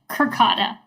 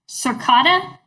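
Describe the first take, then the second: First: The name begins with a hard K sound. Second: The name begins with a soft S sound. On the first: "sometimes the e doesn't make a c" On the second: "I don't know if I'm pronouncing this right"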